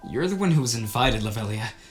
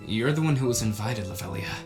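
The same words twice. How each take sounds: First: It is delivered in a more intense way. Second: It is delivered in a calmer, less intense way.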